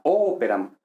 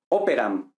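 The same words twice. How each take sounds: First: "Operam" con la O inicial marcada y alargada; acento esdrújulo. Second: Said in the usual way. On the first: Shown as a demonstration. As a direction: carga la voz en la primera sílaba de "Operam". ("Operam" esdrújula, O inicial sostenida) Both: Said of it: "esta es esdrújula".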